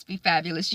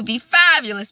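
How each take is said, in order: First: Fabulous softer, with a gentle upward lilt; soft echo. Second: Fabulous punched out, falling firmly; emphatic. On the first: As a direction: echo it tenderly to the viewer. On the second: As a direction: declare it like a rallying cry. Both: Acted. Sign-off catchphrase, said twice.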